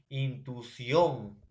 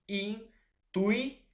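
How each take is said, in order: First: Said in the usual way. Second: Intuición slowly split, in, tui, ción, with pauses; high, drawn-out separate beats on intuición; syllable by syllable. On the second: Shown as a demonstration. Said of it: "la división por sonido".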